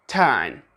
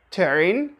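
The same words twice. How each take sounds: First: British "turn" without the R; non-rhotic "turn"; silent R. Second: "turn" with a hard American R; exaggerated rhotic "turn", R drawn out; pronounced R. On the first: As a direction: say "turn" with a long vowel and no R, falling. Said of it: "we say". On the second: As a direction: sound the R strongly in "turn". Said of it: "We don't say turn". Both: Shown as a demonstration.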